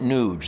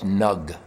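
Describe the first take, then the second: First: The vowel is long, like in 'huge'. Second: The vowel is short, like in 'bug'. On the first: "I learned what a long vowel sounds like" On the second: "N U G isn't Nuge, that's Nug"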